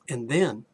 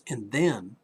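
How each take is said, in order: Both takes have the same delivery.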